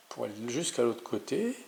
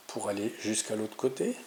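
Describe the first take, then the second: No difference in how they are said.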